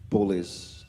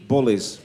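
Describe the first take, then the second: First: Said in the usual way. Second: A loud, punched Bullies in a Wolverhampton accent. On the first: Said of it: "my Wolverhampton accent coming out there". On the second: Real, not acted. Politician at a public meeting denouncing bullies, Wolverhampton accent slipping out loud. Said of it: "Sorry, it's my Wolverhampton accent coming out there".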